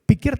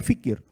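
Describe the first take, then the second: First: The word begins with a P sound. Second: The word begins with an F sound. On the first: The speaker calls it right. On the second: The speaker calls it wrong.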